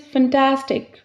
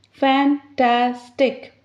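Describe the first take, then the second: First: Said in the usual way. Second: 'Fantastic.' said slowly as fan-tas-tic; slowly split into syllables. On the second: Shown as a demonstration. Teacher to students counting syllables, slowly sounding out 'Fantastic.'. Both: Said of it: "three vowels, three syllables".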